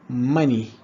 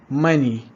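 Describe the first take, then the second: No difference in how they are said.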